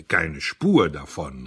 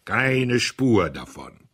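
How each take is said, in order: First: Slow, loud, pronouncing verdict; a judge handing down a death sentence; emphatic cry. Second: Even slower, loud, final and merciless; judge's verdict. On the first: Audley slowly and loudly rejecting the Café Anglais. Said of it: "rief er". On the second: Audley repeating his verdict to the diners like a judge. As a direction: pronounce it like a death sentence. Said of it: "wie ein Richter, der ein Todesurteil ausspricht". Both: Acted.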